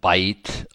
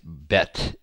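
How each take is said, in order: First: The vowel is a glide, as in 'bite'. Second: The vowel is short, as in 'bet'. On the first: Some people pronounce it this way. "I've heard some people say like bite" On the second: This is the most commonly heard pronunciation. "bet is how I've heard it pronounced the most"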